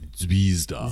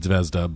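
First: The name is pronounced with Japanese sounds. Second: The name is pronounced as an English reader would. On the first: "the Japanese pronunciation is Zvezda" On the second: "It looks like it should be Zvezda"

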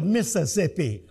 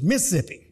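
First: It is said Northern style, in full syllables. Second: It is said Southern style, in two syllables.

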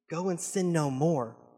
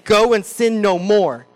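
First: It is said in a gentle, freeing tone. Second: It is said in a scolding, finger-wagging tone.

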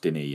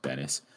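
First: The name is said the French way. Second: The name is said the English way. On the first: The speaker calls it right. "He's French-Canadian, so I'm fairly sure it's pronounced Denis" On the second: The speaker calls it wrong. "and not Dennis"

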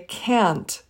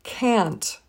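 Both takes have the same delivery.

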